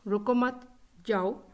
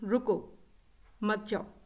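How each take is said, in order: First: The pause comes after the second word. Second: The pause comes after the first word. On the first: The listener should not stay but leave. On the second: The listener should stay and not leave.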